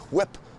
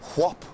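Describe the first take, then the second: First: The vowel sounds like the 'i' in 'sit'. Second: The vowel sounds like the 'o' in 'hot'.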